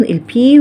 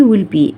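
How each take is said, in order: First: البي said with a P, lips popping unvoiced; P sound. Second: والبي said with a voiced B; B sound. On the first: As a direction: say البي as the English letter P. (نطق البي بصوت P مهموس) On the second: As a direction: say والبي as the English letter B. (نطق والبي بصوت B مجهور) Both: Shown as a demonstration. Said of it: "بفرق بين الصوتين".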